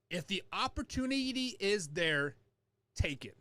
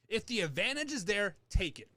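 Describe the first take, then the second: First: It is said more slowly. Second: It is said at normal speed.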